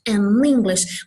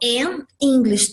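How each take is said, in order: First: The two words are linked together. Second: The two words are said separately. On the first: The speaker calls it right. "Você faz uma liaison" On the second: The speaker calls it wrong. "eu não falo an English teacher"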